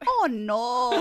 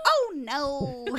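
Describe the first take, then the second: First: "Oh, no" with Spanish-style vowels; playful Spanish-accented toddler dismay; imitated Spanish accent. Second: Put-on higher, drawn-out child's "Oh, no"; imitated toddler daughter. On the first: Mom wants it more Spanish, imitated Spanish-accented "Oh, no". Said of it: "say it a little bit more like in Spanish". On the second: Daughter after dropping something, imitated higher toddler dismay. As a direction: mimic a tot's little dismay. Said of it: "doing this crazy thing now this week where she goes".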